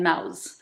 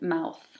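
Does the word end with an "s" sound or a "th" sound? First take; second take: s; th. First: The word ends with a hissing "s" sound. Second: The word ends with a soft "th" sound. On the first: "it becomes thank you and mouse uh, when it's pronounced by a, a native speaker" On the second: "the voiceless um, interdental fricative"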